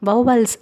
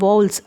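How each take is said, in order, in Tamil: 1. இந்த வார்த்தை இரண்டு முழு அசைகளாகச் சொல்லப்படுகிறது. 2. இந்த வார்த்தை ஒரே அசையாகச் சுருக்கிச் சொல்லப்படுகிறது. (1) "இதை வௌவல்ஸ் அப்படின்னு சொல்லிட்டு நம்ம சொல்லுவோம்" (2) "இங்கிலீஷ் பீப்புள் எப்படி ப்ரொனவுன்ஸ் பண்ணுவாங்கன்னா வௌல்ஸ்"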